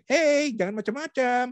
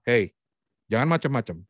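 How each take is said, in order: First: Very high, drawn-out cartoon voice; badly faked anger in a squeaky cartoon pitch; SpongeBob. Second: Restrained angry warning. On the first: Coach shows how anger should not sound, silly high SpongeBob voice. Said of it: "Itu SpongeBob kali ya". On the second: Coach shows how an angry person would really warn someone, firm and restrained. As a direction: press the words down as a stern warning. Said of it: "Tapi mungkin dia akan bilang". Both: Shown as a demonstration.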